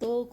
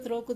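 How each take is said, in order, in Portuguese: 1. A palavra é dita sem o r depois do t. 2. A palavra é dita com o r depois do t.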